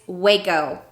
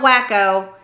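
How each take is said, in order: First: The first syllable sounds like 'way'. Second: The first syllable sounds like 'wack'. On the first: The speaker calls it right. "it's Waco" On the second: The speaker calls it wrong. "it's not wacko"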